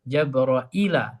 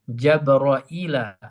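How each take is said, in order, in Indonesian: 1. Nama itu diucapkan Jabraila dengan hamza. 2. Nama itu diucapkan Jabraila dengan hamza.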